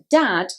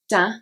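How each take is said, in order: First: The final d is pronounced. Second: The final d is dropped.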